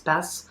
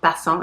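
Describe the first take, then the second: First: The word ends plainly with a silent ending. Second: The word ends with a nasal 'ahn' sound. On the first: The speaker calls it right. "it's Passe" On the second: The speaker calls it wrong. "It's not Passant"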